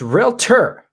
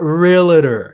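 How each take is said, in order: First: It is said with two syllables. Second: It is said with three syllables. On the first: The speaker calls it right. "it's realtor" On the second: The speaker calls it wrong. "not realtor. There's no A in between the L and the T"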